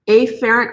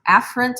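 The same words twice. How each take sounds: First: The first sound is stretched and strongly emphasized. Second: The first sound is said in the ordinary way. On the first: The speaker calls it wrong. "I like to purposefully mispronounce the um, terms and really emphasize the first letter" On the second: The speaker calls it right. "in actuality, these terms are pronounced afferent and efferent"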